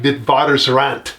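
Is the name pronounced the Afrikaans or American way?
Afrikaans. The name is said with an Afrikaans pronunciation. This is how locals say it. "if you live in South Africa and you speak Afrikaans, you would pronounce it more like"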